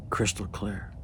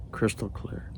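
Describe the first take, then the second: No difference in how they are said.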